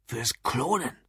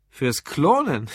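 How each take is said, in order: First: Earnest, softly stated answer; dead serious. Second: Slow, drawn-out surprised question; incredulous echo. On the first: Drunk customer gravely tells the barman his interest, dead serious. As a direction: say it gravely, with quiet weight. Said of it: "Lou wurde wieder ernst". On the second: Curious barman echoes the drunk's answer, incredulous. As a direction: stretch it out in amused disbelief. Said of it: "Das Gesicht des Barmanns veränderte sich". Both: A narrator's reading.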